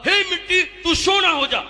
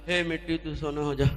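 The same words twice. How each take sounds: First: It is said with great enthusiasm. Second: It is said with little enthusiasm.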